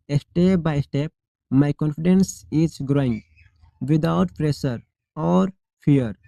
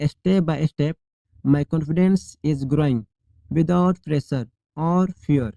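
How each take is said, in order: Both takes have the same delivery.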